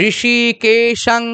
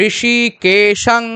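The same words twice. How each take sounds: The two takes are said the same way.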